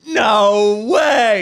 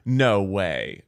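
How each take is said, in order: First: It is said at the loudest volume. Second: It is said at the quietest volume.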